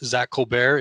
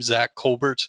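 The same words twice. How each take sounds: First: The surname is said in a French-sounding way. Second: The surname is said in a plain English way.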